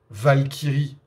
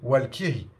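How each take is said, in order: First: The word begins with a v sound. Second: The word begins with a w sound. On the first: This is the usual form in France. "on va utiliser le terme Valkyrie en France" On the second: This is the form used in northern Germany. "dans le nord de l'Allemagne, on dit Walkyrie"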